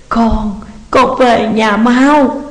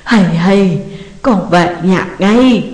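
First: Drawn-out, slow tearful call to hurry home; begging her son to come back now; sobbing plea. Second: Slow, sobbing plea to come home; mother crying out to her son; wailing on the phone. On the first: (mẹ khóc gọi con về nhanh) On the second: (mẹ gào khóc qua điện thoại) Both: A narrator's reading. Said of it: "đang gào khóc thảm thiết".

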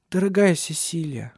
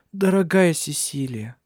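First: Said in the usual way. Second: Slow, tender higher voice; tender and moved. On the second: A narrator's reading. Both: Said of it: "тихо произнесла она".

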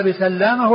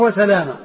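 First: بسلامة with a double l, "bi-sallama"; doubled lam. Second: وسلامة with one short l, "wa-salama"; lightened lam. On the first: Teacher repeating both names, بسلامة as "bi-sallama". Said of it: "بالتشديد". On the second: Teacher repeating both names, وسلامة as "wa-salama". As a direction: say وسلامة without doubling the ل. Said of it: "بتخفيف اللام". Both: Shown as a demonstration.

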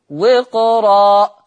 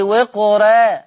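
First: وقرا very slow and louder with a full heavy ra. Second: وقرا with a thin ra, the wrong way. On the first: Teacher models the correct reading, slow heavy ra. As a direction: stretch وقرا with a thick ra. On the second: Teacher shows the mistake, wrong thin ra. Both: Shown as a demonstration. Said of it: "اوعى حد يقول لي وقرا".

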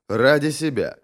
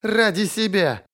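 First: Said in the usual way. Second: High, drawn-out scoff; scornful snort. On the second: A narrator's reading. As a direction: stretch it scornfully, pitched way up. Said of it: "Она фыркнула".

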